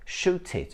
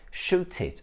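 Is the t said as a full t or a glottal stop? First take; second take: full t; full t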